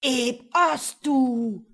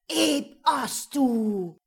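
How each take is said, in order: First: Slow, loud, booming spell chant; incantation. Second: Slow, loud, echoing spell; incantation. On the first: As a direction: intone the spell like a dark mage. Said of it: "sprach der Magier erneut den Schlusssatz". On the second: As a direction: intone the spell into the night. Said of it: "vom Echo tief in die Nacht getragen". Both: A narrator's reading.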